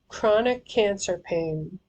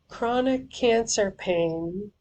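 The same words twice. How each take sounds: Both takes have the same delivery.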